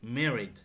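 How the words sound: It is said with an American pronunciation. "the U S is"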